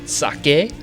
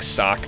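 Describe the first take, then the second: First: The final E is pronounced as a vowel. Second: The final E is silent. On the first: "however you want to pronounce it" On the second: "I prefer the silent E. I just like Sock"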